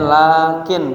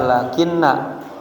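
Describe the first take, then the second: First: The word ends in a bare n sound. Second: The word ends with an added -na syllable. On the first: It is the conjunction meaning but. The speaker calls it right. "bacanya lakin bisukun ujungnya" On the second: It is the particle that governs subject and predicate. The speaker calls it wrong. "Jangan dibaca lakinna"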